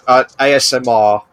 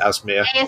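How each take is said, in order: First: It is spelled out letter by letter. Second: It is said as a single two-syllable word. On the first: The speaker calls it right. "It's just the letters" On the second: The speaker calls it wrong. "I'll call it Asmir"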